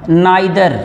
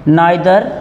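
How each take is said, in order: Both takes have the same delivery.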